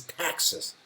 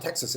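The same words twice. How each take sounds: First: "Texas" with a broad, flat "a", like "Taxes"; Texan pronunciation. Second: Said in the usual way. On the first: Retold or imitated. Shop woman correcting a visitor's Texas, emphatic Texan vowel in "Texas". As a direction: imitate a local saying "Texas" as "TAX-sus". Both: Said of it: "the woman in the shop corrected".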